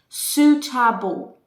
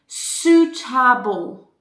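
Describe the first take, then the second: Both takes have the same delivery.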